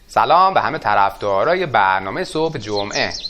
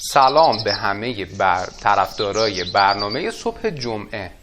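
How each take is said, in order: First: It is spoken with a Kermani accent melody. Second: It is spoken in a plain standard Persian accent.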